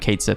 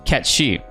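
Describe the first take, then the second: First: The name is read out as spelled. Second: The name is said the Scottish way. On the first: This is how the party chooses to say the name. "we ain't saying that. We're calling you" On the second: This is how the character says his own name. "he says in his Scottish accent, his name is"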